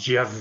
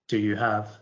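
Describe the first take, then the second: First: It is said extremely fast and blurred together. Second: It is said at a normal conversational speed. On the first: "a farcical end" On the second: "a natural speed, like"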